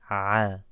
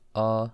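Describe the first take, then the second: First: The sound comes from deep in the throat. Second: The sound is plain, not from the throat. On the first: The speaker calls it right. "should come from the throat" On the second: The speaker calls it wrong. "it shouldn't sound like a"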